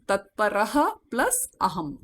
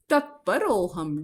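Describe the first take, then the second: First: "Tatparaha plus aham" in separate parts; divided sandhi. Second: "Tatparoham" as one joined word; joined sandhi. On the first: Teacher divides the word for students, "Tatparaha plus aham" split. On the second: Teacher reads the word to be divided, "Tatparoham" joined. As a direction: run "Tatparoham" together with a linking o. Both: Shown as a demonstration. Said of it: "divide the word".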